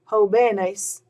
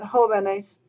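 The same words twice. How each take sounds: First: The stress is on the second syllable. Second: The stress is on the first syllable. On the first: The speaker calls it wrong. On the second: The speaker calls it right.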